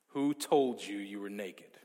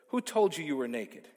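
First: It is said in a big, booming voice. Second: It is read in a plain, calm voice.

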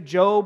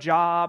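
First: The word is said as the usual name. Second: The word is read as it is spelled. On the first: "we say Job" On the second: "instead of Job"

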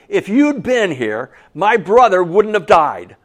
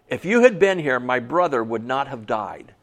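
First: It is said in an upset, angry way. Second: It is read in a calm, neutral way.

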